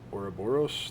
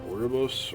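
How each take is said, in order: First: The word is said in full, every syllable. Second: The word is clipped, with syllables dropped. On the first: The speaker calls it right. "There we go. That's how you say that" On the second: The speaker calls it wrong. "I can't ever say that right"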